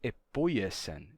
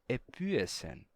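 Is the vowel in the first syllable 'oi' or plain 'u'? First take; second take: oi; u. First: The vowel is said as the diphthong oi. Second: The vowel is said as a plain u. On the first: This is not how it was pronounced in that period. The speaker calls it wrong. "Isso daqui não é mais epoiesen" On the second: This is how it was pronounced in that period. The speaker calls it right. "assim é como se pronunciava, com U"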